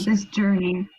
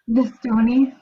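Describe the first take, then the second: First: The s sounds are clear, with no lisp. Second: The s sounds are lisped, mocking a speech impediment.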